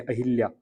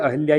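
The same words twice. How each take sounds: First: 'अहिल्या' with a short i after ह, pitch dropping. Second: 'अहिल्या' with no i after ह; 'अहिल्या' without the i. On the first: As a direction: say 'अहिल्या' as a-hil-ya. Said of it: "ये गलत होता है आपका". ('अहिल्या' में ह पर छोटी इ, गलत वर्तनी वाला उच्चारण) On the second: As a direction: say 'अहिल्या' as a-hal-ya. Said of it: "बिल्कुल आपका यहाँ पे सही होता है". ('अहिल्या' को 'अहल्या' बोलें, सही वर्तनी वाला उच्चारण) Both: Shown as a demonstration.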